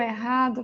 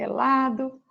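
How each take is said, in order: First: The word is said with an R sound. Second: The word is said with an L sound. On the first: The speaker calls it right. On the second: The speaker calls it wrong.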